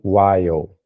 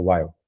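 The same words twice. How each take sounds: First: The word is said fully and drawn out. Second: The word is said quickly with a reduced vowel. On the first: The speaker calls it wrong. "não fica muito com while" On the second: The speaker calls it right. "fica while. Fica um pouco mais rápido, como se tivesse perdido o E"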